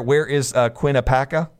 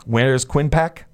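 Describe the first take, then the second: First: "Quinnipiac" said in full, all syllables, as a question; unsure pronunciation. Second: "Quinpac" squeezed into two syllables, KWIN-pack; shortened pronunciation. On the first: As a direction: try "Quinnipiac" with its middle syllables kept. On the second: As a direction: try "Quinpac" without the middle syllables. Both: Shown as a demonstration. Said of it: "however you say it".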